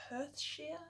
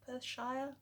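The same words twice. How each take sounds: First: Perthshire said as "Perth-sheer", ending on an unsure rising question; trying a pronunciation. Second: Perthshire said as "Perth-shy-er", with three syllables; second try at pronunciation. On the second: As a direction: try "Perthshire" again as "Perth-shy-er", a little more settled. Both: Shown as a demonstration. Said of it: "Is that how you say it?".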